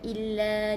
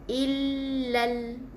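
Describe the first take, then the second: First: The final vowel is held long with no l. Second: The vowel is short and ends on a clear l. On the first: The speaker calls it wrong. "bukan illa dua harakat" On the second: The speaker calls it right. "Jadi kita baca dengan illal. Ha, l. Jadi ada angkat lidah"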